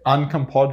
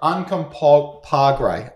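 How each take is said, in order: First: The last syllable starts with a D sound. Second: The last syllable starts with a G sound. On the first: The speaker calls it wrong. "I'm saying D" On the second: The speaker calls it right. "It's a G"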